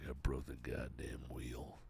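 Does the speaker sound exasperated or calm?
calm. It sounds calm, without exasperation.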